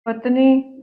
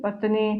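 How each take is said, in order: First: पत्नी loud with a long final vowel; deliberately wrong पत्नी, louder and stretched; mispronounced पत्नी. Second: Said in the usual way. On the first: Shown as a demonstration. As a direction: give पत्नी as the loud, lengthened faulty example. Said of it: "अशुद्ध वर्तनी". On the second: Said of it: "ये सारी शुद्ध है".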